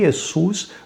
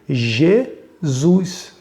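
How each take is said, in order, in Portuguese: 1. O nome começa com um som parecido com Y. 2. O nome começa com um som de J. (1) "o I de Jesus era o I consonantal" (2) "colocava-se o J"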